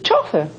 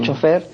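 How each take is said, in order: First: The stress is on the first syllable. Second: The stress is on the last syllable. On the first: This goes against the French original. "Ellos dicen chofer" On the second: This follows the French original more closely. "en francés es aguda la palabra, es. Ahí nosotros estamos más cerca"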